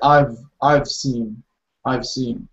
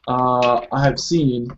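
First: Have is reduced to a short v sound. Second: The word have is said in full. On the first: "we'll say I've seen" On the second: "when we say I have seen"

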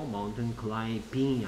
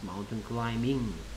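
First: The b in climbing is pronounced. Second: The b in climbing is silent. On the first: The speaker calls it wrong. "아니고" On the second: The speaker calls it right. "B가 소리 안 난다 했죠"

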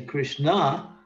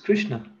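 First: The final vowel is long and stressed. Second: The final vowel is short and unstressed. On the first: It names Draupadi. The speaker calls it wrong. "because if you say Krishna, you're saying Draupadi" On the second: It names the god Krishna. The speaker calls it right. "The word is Krishna. It's not, there's no emphasis on the last syllable"

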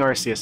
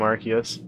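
First: The name is said closer to the Japanese way. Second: The name is said in an anglicized way. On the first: The speaker calls it right. "That's closer to the Japanese pronunciation" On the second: The speaker calls it wrong. "I keep getting his name wrong"

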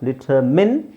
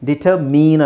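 First: The last syllable has a short 'i' vowel. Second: The last syllable has a long 'ee' vowel. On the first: The speaker calls it right. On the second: The speaker calls it wrong.

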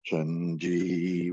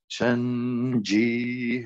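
First: It is said in a low, deep chest voice. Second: It is said in a higher head voice. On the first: "We have our deep voice in the belly and the sort of chest" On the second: "If you go higher into your head voice"

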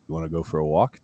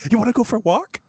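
First: The voice is plain, with little inflection. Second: The voice is lively, with strong inflection. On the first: The dog does not respond. "but if I just said" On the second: The dog responds right away. "It's just my little voice inflection to get my little doggy to do what I want"

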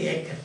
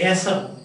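First: The middle consonant sounds like a 'k'. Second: The middle consonant sounds like an 's'. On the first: The speaker calls it right. "but we say acre" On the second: The speaker calls it wrong. "We don't say acer"

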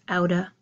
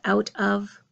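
First: The words blend into one reduced form. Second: Both words are said fully and separately. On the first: "reducing to this outa" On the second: "my phrase out of"

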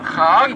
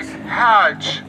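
First: The word starts with a rough 'kh' sound. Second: The word starts with a breathy 'h' sound. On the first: The speaker calls it wrong. "Het is not supposed to be a chet" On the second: The speaker calls it right. "it's supposed to be a het"

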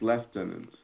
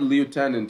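First: It is said the British way, like 'leftenant'. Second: It is said the American way, like 'lootenant'. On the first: The speaker calls it right. "that's in British" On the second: The speaker calls it wrong. "it's not lieutenant"

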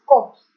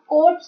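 First: The word is said with no r sound. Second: The word is said with an r sound. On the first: The speaker calls it right. "इसमें आर silent है" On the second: The speaker calls it wrong. "कॉप्स नहीं है"

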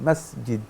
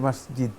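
Both takes have the same delivery.

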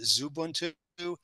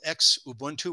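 First: The word begins with a plain z sound. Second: The word does not begin with a z sound. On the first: "some people would pronounce it Zubuntu" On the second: "There's a default user called Xubuntu"

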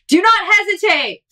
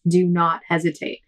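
First: It is yelled loudly. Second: It is said at normal reading volume.

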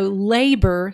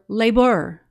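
First: The stress is on the first syllable. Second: The stress is on the second syllable. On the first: The speaker calls it right. "the accent is actually on the first syllable" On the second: The speaker calls it wrong. "It's hard to say it that way"

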